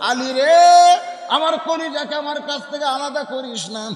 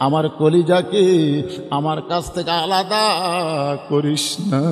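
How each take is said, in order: First: Acted tearful wail, run together; orphan-like tearful plea. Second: Pleading lament. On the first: Prophet calling Ali back for the child, mock-tearful chanted plea. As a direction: plead like a crying orphan, in one quicker breath. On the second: Acted. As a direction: stretch each phrase into a chanted entreaty. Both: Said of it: "এতিমের মতন দাঁড়িয়ে কাঁদতেছে আর বলতেছে".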